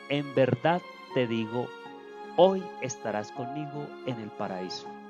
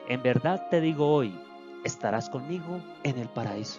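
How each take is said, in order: First: The pause comes before the word hoy. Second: The pause comes after the word hoy. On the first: Being in paradise happens that same day. The speaker calls it wrong. "poner la coma ... en lugar de antes" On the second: Only the promise is made that day. The speaker calls it right. "posteriormente a la palabra hoy"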